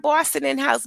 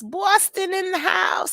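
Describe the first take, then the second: First: Said in the usual way. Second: High, drawn-out announcement on Boston; changed voice. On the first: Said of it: "I have to change my, my, um, my voice when I say that word". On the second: Real, not acted. Welcoming a Boston viewer, high changed voice. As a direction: stretch it out in a raised playful voice. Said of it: "I don't know why I have to change my, my, um, my voice when I say that word".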